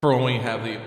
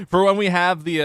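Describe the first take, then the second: First: Said in the usual way. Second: High, loud megaphone announcement. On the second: Shown as a demonstration. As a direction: blare it like a megaphone. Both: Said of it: "the megaphone voice like that".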